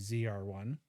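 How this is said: Z is pronounced zee, the American way.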